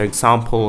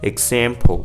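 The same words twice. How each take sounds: First: It is said in a British accent. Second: It is said in an American accent. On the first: "of the British accent" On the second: "in an American accent"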